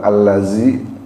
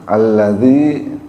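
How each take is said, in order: First: The middle consonant is a buzzing z sound. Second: The middle consonant is a soft th sound. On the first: The speaker calls it wrong. "bukan allazi" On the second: The speaker calls it right. "Alladzi karena itu pakai zal"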